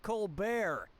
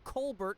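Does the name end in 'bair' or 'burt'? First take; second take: bair; burt. First: The last syllable is said as bair. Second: The last syllable is said as burt. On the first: This is the changed, newer way of saying the name. "changing the pronunciation of the Bert" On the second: This is the original way the name was said. "changed the pronunciation of his name from Colbert"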